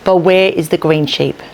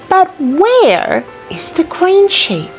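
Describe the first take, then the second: First: It is faster with flat, unvarying pitch. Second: It is slow with widely varying pitch. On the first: The speaker calls it wrong. "I'm not going to use any intonation, and I'm going to read it a little bit more faster" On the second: The speaker calls it right. "read slowly and with lots of varying intonation"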